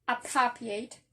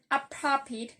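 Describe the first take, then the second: First: Appropriate ending in a long "ate"; changed final vowel. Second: Appropriate ending in a short "it"; short final vowel. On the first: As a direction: say appropriate as a verb, last syllable like "eight". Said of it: "the last vowel sound change". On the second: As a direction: say appropriate as an adjective, last syllable "pit". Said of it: "the last sound is the short E". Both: Shown as a demonstration.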